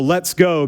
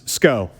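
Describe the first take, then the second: First: It is said fully as two syllables. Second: It is squeezed into a single syllable. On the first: "So let's go becomes sco" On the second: "We shortened it to sco"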